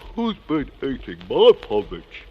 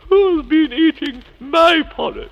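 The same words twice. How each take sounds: First: It is said in a growling Father Bear voice. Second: It is said in a non-growling Mother Bear voice.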